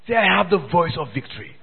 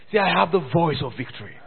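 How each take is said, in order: Both takes have the same delivery.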